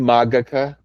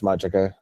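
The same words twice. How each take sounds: First: It is said in classical Latin style. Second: It is said like the English word magic. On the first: "it's supposed to be Magica because it's classical Latin" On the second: "It's Ars Magica. It's like magic"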